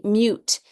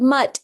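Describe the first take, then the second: First: "mute" said with a long u, like "myoot"; long vowel demo. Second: "mutt" said with a short u; short vowel demo. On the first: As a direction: let the u in "mute" say its name. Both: Shown as a demonstration. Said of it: "your silent E".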